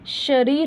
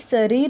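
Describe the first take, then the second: First: The word begins with an sh sound. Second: The word begins with a plain s sound. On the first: The speaker calls it right. "शरीर होता है" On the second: The speaker calls it wrong. "ये मैं बता दूँ कि शरीर नहीं होता"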